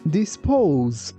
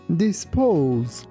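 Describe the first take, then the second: No difference in how they are said.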